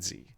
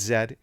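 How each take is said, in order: First: The letter is said as zee. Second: The letter is said as zed. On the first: The speaker calls it wrong. "it's not Z" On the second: The speaker calls it right. "You got to do it the proper way. It's Z"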